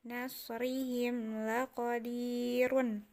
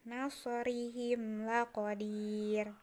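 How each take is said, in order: First: The last word ends with a vowel plus n. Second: The last word ends on a bare consonant. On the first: This is the full form with its ending. "walaupun dia berharokat uh, domah tain" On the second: This is the form used when stopping here. "ketika kita akan mewakafkan tadi sudah dijelaskan, tetap dimatikan"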